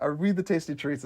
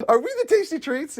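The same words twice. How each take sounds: First: Said in the usual way. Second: Higher, voiced "Are we the tasty treats?" with lift on "tasty"; quoted line, acted. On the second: Quoting line from the show.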